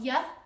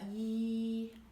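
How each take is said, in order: First: An uh vowel follows the consonant sound. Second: The consonant sound is said alone, no vowel. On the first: The speaker calls it wrong. "not y" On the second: The speaker calls it right. "but y"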